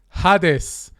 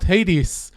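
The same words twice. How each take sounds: First: The name is pronounced the Hebrew way. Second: The name is pronounced the English way. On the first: "in Hebrew, we said Hades" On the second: "and not Hades"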